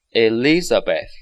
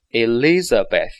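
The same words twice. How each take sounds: The two takes are said the same way.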